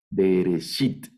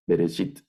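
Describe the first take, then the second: First: "bereshit" slowed into separate syllables; stretched, divided "bereshit"; syllable-by-syllable word. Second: Said in the usual way. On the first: Shown as a demonstration. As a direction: sound out "bereshit" piece by piece. Teacher sounds out the syllables.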